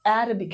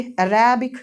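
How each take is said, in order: First: अरबिक with opening A stressed; stress first syllable. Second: अरेबिक with a loud middle RE; stress on RE. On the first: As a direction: put weight on the A starting अरबिक. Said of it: "लेकिन अरेबिक नहीं है". (अरबिक में पहले 'अ' पर ज़ोर) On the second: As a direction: punch RE in अरेबिक. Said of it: "होना चाहिए था रे पे". (अरेबिक में 'रे' पर ज़ोर) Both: Shown as a demonstration.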